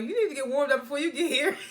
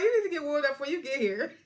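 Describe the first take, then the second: First: Said in the usual way. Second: Higher, mocking take on Gemma; imitating Gemma. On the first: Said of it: "And Gemma was like". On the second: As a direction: mimic her bossy line in a put-on voice. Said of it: "She was like".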